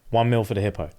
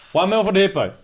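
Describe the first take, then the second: First: Lightly voiced low bidder; voice in the back. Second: Raised-pitch replay of the bid; emphatic repeat. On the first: Retelling a bid from the back of the room, low and understated. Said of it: "Hear a voice in the back". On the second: Retold or imitated. Storyteller replaying the big bid to stun listeners, emphatic. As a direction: repeat the bid higher, for impact.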